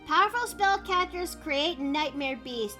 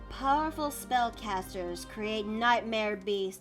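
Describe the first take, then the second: First: It is read in an ordinary, plain speaking voice. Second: It is read in a dramatic storyteller's narrating voice. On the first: The speaker calls it wrong. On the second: The speaker calls it right.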